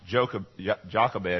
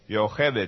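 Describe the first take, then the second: First: The name begins with a J sound. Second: The name begins with a Y sound. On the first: The speaker calls it wrong. "her name especially is not pronounced Jochebed" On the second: The speaker calls it right. "is the way you pronounce it in Hebrew"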